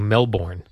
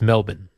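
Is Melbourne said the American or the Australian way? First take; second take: American; Australian. First: It is said the American way, full second syllable. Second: It is said the Australian way, reduced second syllable.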